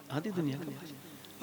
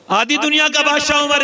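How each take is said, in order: First: Much softer, lower murmured echo; hushed repeat. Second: Higher, louder proclamation; proclaiming. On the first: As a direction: let the title sink in, almost silent. Repeats title under his breath. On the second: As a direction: announce the emperor's title loudly. Preacher proclaims Umar's title. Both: Acted.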